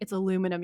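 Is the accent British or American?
American. It is said in an American accent.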